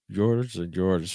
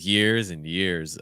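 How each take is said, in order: First: The vowel is tense and closed, like 'er'. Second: The vowel is open, like 'ear'. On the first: The speaker calls it wrong. "We're really tensing up again and closing on that er sounds" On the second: The speaker calls it right. "So we need more of that ear"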